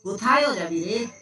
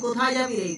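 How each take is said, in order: First: The first word ends with an added 'o' vowel. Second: The first word ends without an added vowel. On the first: The speaker calls it wrong. "আর আমরা এটাকে normal ভাবে এটাও বলি না যে কোথায়ও" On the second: The speaker calls it right. "তুই যদি বলি কোথায় যাবি রে"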